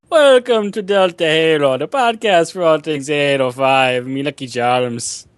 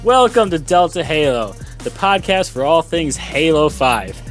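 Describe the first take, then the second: First: It is said in an Irish accent. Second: It is said in the speaker's usual accent.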